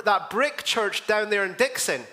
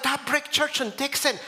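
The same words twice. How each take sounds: First: Said in the usual way. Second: Higher pitch, rising to a question; surprised echo question. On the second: Retold or imitated. Pastor echoes the lady's church remark, playfully surprised. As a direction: echo it back with interested surprise.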